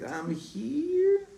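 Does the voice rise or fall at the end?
rise. The voice rises at the end, like a question.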